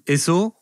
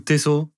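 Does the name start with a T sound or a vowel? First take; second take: vowel; T sound. First: The name starts with a vowel sound. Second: The name starts with a T sound. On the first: "sans le T" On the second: "avec le T"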